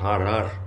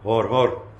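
First: Both words are said with an 'a' vowel. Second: Both words are said with an 'o' vowel. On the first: This is how people want to pronounce it. "men wil het uitspreken als Har" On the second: This is how the name is written. "Er staat gewoon Hor Hor"

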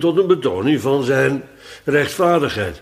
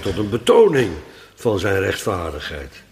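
First: The word rechtvaardigheid carries the main stress. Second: The word betoning carries the main stress. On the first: Righteousness is presented as the new point. The speaker calls it wrong. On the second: Righteousness is already known; the demonstration is the point. The speaker calls it right.

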